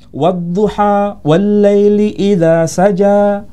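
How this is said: Final vowels are pronounced as open 'a'.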